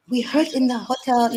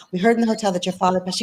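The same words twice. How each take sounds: First: Put-on a half-hearted try at an Indian accent, a bit higher; abandoned Indian accent. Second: Said in the usual way. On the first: Quoting the Indian woman from the hotel, faint Indian accent attempt. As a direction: start a faint Indian accent, then give it up. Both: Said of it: "I can't do the accent".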